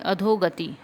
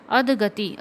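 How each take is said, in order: First: अधोगति with an 'o' after the dh; adho-gati, the 'o' sounded; correct pronunciation. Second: अधगति with no 'o' after अध; adh-gati, the 'o' left out; wrong pronunciation. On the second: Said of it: "अधगति नहीं होगा". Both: Shown as a demonstration.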